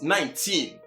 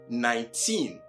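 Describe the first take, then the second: First: The stress is on the first syllable. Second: The stress is on the last syllable. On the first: The speaker calls it wrong. "as commonly heard among Ghanaians and many Africans" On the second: The speaker calls it right. "with emphasis in pronunciation placed on the last syllable"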